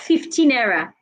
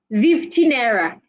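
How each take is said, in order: First: Fifteen begins with a voiceless f sound. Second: Fifteen begins with a voiced v sound. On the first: The speaker calls it right. "instead of" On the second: The speaker calls it wrong. "whenever they want to say words with f, they will say v"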